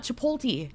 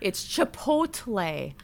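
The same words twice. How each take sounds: First: "Chipotle" as chi-POLE-tee; wrong version. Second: "Chipotle" slowly, as chi-POHT-lay; correcting pronunciation. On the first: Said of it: "She could not say it". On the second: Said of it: "Not Chipotle". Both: Shown as a demonstration.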